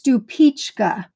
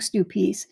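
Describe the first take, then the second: First: The name ends with a 'chka' sound. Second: The name ends with an 's' sound. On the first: The speaker calls it right. "It's Stupichka" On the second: The speaker calls it wrong. "I've been mispronouncing for years"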